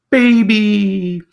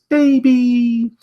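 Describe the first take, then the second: First: High, louder held call; tortoise. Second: High held tender call; mama hippo. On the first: Tortoise answering the baby hippo, high and louder. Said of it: "the tortoise ... saying". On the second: Mama hippo answering her baby, high held voice. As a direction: answer the little one gently. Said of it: "mama hippo ... says". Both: Acted.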